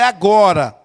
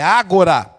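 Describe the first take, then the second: First: The stress is on the second syllable. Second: The stress is on the first syllable. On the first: The speaker calls it wrong. "não é agora" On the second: The speaker calls it right. "no grego, é agora"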